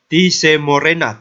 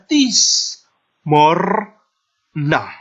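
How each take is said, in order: First: Extra vowels are sounded after the s and r. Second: No vowels are sounded after the s and r. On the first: The speaker calls it wrong. "maka dia tidak dibaca tise morena" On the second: The speaker calls it right. "tetapi dibaca tis morna"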